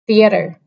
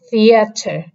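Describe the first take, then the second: First: It is spoken in an American accent. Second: It is spoken in a British accent. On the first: "in the American pronunciation, the first word is theater" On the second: "in the British accent, this is theater"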